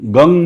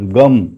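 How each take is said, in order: First: The word ends with open lips, an ng sound. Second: The word ends with closed lips, an m sound. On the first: The speaker calls it wrong. "गंग में होठ बंद नहीं होता" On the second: The speaker calls it right. "म होठ बंद होगा"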